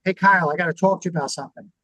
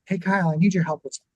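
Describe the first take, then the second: First: Quick, blunt opener that puts him on guard; spring it on him fast and direct; blunt confrontation. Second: Quick, easy ask that keeps him relaxed; friendly request. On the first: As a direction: boss bluntly summoning an employee, fast and abrupt. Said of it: "if I just go up to him and go". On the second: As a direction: ask for help lightly so he doesn't tense up. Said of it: "I'm gonna go". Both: Shown as a demonstration.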